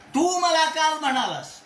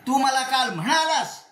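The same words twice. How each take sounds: First: The stress falls on the word तू. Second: The stress falls on the word म्हणालास. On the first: You said it, nobody else did. "इथे तूला जोर दिला" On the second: You told me in person, not just by message. "केवळ नुसते S M S टाकला नाही, मला बोललास तू"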